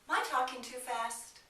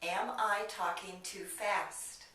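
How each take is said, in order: First: "Am I" is reduced to sound like "my". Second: "Am I" is said in full, both words clear.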